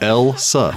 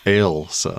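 First: The first syllable sounds like 'el'. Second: The first syllable sounds like 'ale'. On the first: The speaker calls it wrong. "No, ale. Like the drink" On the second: The speaker calls it right. "There you go"

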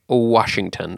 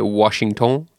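First: It is said with an English accent. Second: It is said with a French accent.

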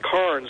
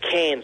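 First: The vowel sounds like the one in 'corns'. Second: The vowel sounds like the one in 'cans'. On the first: This is how people outside Australia say it. "like it's pronounced Corns over here" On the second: This is how Australians say it. "we pronounce it Cairns down there, like beer cans"

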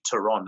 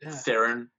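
First: The surname is said the South African way. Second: The surname is said the American way. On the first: "that's actually the South African way of pronouncing it" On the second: "as you probably pronounce it there"

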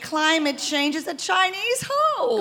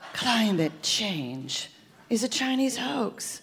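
First: It is said like a condescending mother. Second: It is said seductively, like a spy.

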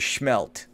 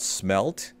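First: The word begins with an sh sound. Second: The word begins with a plain s sound. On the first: The speaker calls it wrong. "or is it schmelt?" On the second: The speaker calls it right. "Am I saying it right"

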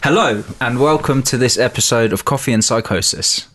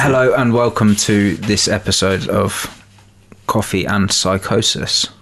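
First: It is said with enthusiasm. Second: It is said flatly, without enthusiasm.

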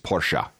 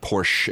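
First: The name is said in the German way. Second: The name is said in an anglicized way. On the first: The speaker calls it right. "It's Porsche. Trust me" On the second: The speaker calls it wrong. "It's not Porsche"

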